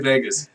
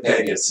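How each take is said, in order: First: It is said with a plain American accent. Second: It is said with a Spanish-style accent.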